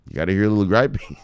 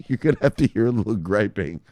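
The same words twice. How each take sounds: First: Said in the usual way. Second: Said through a laugh. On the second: Real, not acted. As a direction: giggle while repeating it.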